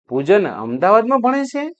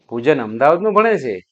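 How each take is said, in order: First: It is said as a question. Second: It is said with surprise.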